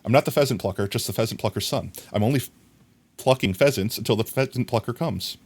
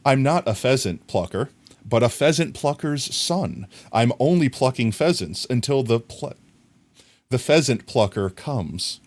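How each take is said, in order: First: Rushed speed run of the tongue twister; as fast as possible. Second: Careful, measured recital; careful tongue twister. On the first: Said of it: "I'm gonna try to say it as fast as possible". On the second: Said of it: "let me try to say it without messing it up". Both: Shown as a demonstration.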